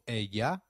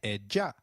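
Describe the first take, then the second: First: The double L sounds like an English Y. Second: The double L sounds like a soft English J. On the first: "double L takes up the sound of Y in some areas" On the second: "a soft J in others"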